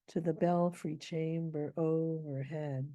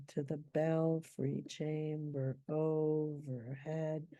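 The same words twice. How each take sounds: First: Slow reading, BELFRY stressed; scanning the meter. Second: Half-speed scansion, "belfry" leaned on, every beat spaced; scanning very slowly. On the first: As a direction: tap out the feet of "To the belfry chamber overhead". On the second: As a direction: stretch each foot of "to the belfry chamber overhead". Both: Shown as a demonstration. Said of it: "maybe you can hear".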